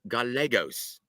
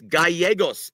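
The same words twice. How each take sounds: First: The name is said with an English-style pronunciation. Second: The name is said with a Spanish-style pronunciation. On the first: The speaker calls it wrong. "he actually called Manuel Gallegos" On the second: The speaker calls it right. "it's Gallegos, Eddie. Pronounce the names properly"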